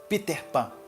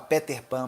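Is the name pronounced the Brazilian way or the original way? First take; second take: original; Brazilian. First: The name has its original, non-Brazilian pronunciation. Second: The name has a Brazilian Portuguese pronunciation. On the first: The speaker calls it right. "mas o certo seria Peter" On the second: The speaker calls it wrong. "Aqui no Brasil a gente fala Peter Pan"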